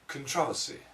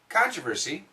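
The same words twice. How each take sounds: First: It is said with a British pronunciation. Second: It is said with an American pronunciation. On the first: "I'm trying British"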